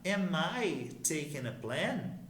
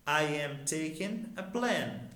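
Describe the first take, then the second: First: "Am I taking a plan?" as a slow, clear question; question intonation. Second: Said in the usual way. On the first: Shown as a demonstration. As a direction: rise on "plan" as if questioning yourself. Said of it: "mudar a entonação da nossa pergunta". ("Am I taking a plan?" em tom de pergunta, devagar) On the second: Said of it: "Agora eu quero me questionar".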